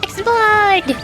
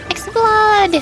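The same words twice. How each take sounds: The two takes are said the same way.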